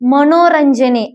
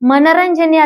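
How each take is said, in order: First: The second syllable has a long o vowel. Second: The second syllable has a short a vowel. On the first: The speaker calls it right. "ಮನೋರಂಜನೆ ಆಗ್ಬೇಕು" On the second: The speaker calls it wrong. "ಮನರಂಜನೆ ಅಲ್ಲ"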